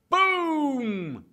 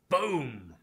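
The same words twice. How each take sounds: First: It is said loudly and drawn out. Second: It is said quietly and flatly.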